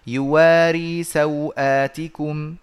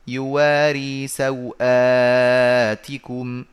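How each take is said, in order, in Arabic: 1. مدّ 'saw' ومدّ 'aat' كلاهما قصير. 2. مدّ 'saw' قصير، ومدّ 'aat' متوسط. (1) "قصر سو مع قصر آت" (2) "قصر اللين مع توسط البدل"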